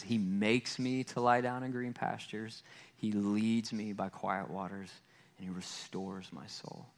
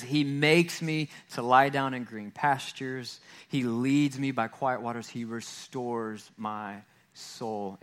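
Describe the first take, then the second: First: Softer and softer, lower, fading into a hush by the last line; hushed scripture reading. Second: Slow scripture reading. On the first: Pastor rereading Psalm 23 to the congregation, fading to a hush. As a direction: let the psalm die away into stillness. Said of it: "he says". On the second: Pastor reading Psalm 23 to the congregation, slow and deliberate. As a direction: let each phrase of the psalm land slowly. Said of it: "It says". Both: Shown as a demonstration.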